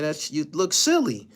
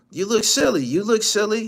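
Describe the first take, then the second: First: Said in the usual way. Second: High, loud mocking yell; mocking shout. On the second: Real, not acted. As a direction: yell it at him in disbelief. Repeats roast much louder, higher.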